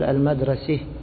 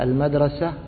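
First: The final vowel leans toward an 'e' sound. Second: The final vowel is an open 'a' sound. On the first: This is the reading of al-Kisa'i. "هو يقول ... يتميز بإمالة التاء المربوطة" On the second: This is the common reading. "فنحن نقول مثلا"

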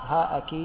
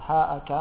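Both takes have the same delivery.

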